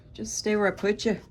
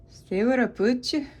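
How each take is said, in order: First: Said in the usual way. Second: Put-on Gaelic accent, higher pitch. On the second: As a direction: lilt it up like a playful Gaelic speaker. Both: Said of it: "Yes, that was my Gaelic accent".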